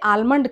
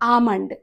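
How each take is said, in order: First: The L sound is pronounced in the word. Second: The L sound is silent in the word. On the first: The speaker calls it wrong. "కానీ అది ఆల్మండ్ కాదు" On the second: The speaker calls it right.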